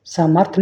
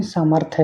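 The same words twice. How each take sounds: First: सामर्थ्य cut to "saamarth"; mispronunciation. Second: Said in the usual way. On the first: Shown as a demonstration. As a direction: drop the final ya of सामर्थ्य. (सामर्थ्य बिना अंतिम 'य' के) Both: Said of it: "सामर्थ्य नहीं".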